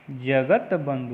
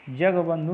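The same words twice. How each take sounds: First: जगत बंधु with a clear t, "jagat bandhu"; deliberate jagat-bandhu for जगत बंधु; correct form. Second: जगबंधु as "jag-bandhu", no t; teacher voicing जगबंधु, straight from g to b; wrong form. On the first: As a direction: sound the t slowly before बंधु in जगत बंधु. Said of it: "होता है". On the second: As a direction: leave the t out of जगबंधु. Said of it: "नहीं होता है". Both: Shown as a demonstration.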